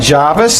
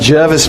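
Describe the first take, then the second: First: The first syllable sounds like 'jar'. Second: The first syllable sounds like 'jer'. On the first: The speaker calls it wrong. "not Jarvis" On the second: The speaker calls it right. "I said Jervis Bay, That's how you say it"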